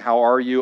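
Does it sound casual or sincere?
casual. It sounds casual and offhand.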